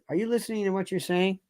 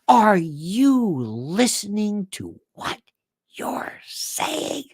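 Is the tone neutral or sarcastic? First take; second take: neutral; sarcastic. First: It is said in a flat, neutral tone. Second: It is said with a sarcastic tone.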